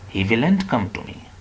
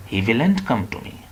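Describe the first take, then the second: First: It is contracted to the form 'willn't'. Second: It is contracted to the form 'willn't'.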